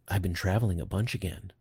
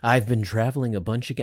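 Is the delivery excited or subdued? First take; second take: subdued; excited. First: It is said with lower, calmer energy. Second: It is said with high, excited energy. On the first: The speaker calls it right. "I got to bring the tone down" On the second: The speaker calls it wrong. "I got excited there"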